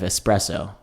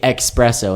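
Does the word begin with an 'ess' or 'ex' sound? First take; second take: ess; ex. First: The word begins with an 'ess' sound. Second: The word begins with an 'ex' sound. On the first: The speaker calls it right. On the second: The speaker calls it wrong.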